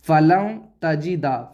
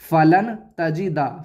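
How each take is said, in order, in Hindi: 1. नून की आवाज़ नाक में छुपी रहती है। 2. नून की आवाज़ साफ पढ़ी जाती है। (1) "नून की आवाज़ नाक में छुपा कर पढ़ेंगे" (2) "अब हम इसे ऐसे नहीं पढ़ेंगे"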